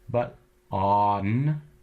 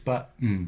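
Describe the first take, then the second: First: The second syllable has a full vowel before N. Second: The second syllable is only a syllabic N. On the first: The speaker calls it wrong. "there's really no O in it" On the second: The speaker calls it right. "that N is essentially the vowel in the second syllable"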